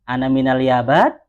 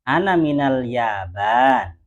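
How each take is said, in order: First: The voice rises at the end, like a question. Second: The voice falls at the end, like a statement. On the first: It sounds like a question. The speaker calls it wrong. "kalau begitu kan pertanyaan" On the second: It gives an answer. The speaker calls it right. "Jawabannya penghabaran"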